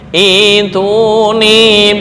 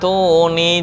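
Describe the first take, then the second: First: The word starts with an added i vowel. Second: The word starts directly with the t sound. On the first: Reading starts fresh at this word. "ketika memulai di sini" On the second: The word is joined to the word before it. "jika nyambung"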